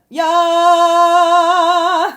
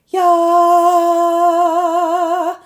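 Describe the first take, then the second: First: It is said in a full chest voice. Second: It is said in a light head voice. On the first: "that's chest voice, full connection" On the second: "that's head voice"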